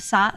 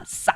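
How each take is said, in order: First: Said in the usual way. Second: "sa" with a forceful S and short tense vowel; tense up on "sa", as if choking a little; tense consonant. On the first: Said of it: "Instead of sa". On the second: Shown as a demonstration. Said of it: "you tend to tense on the vowel a little".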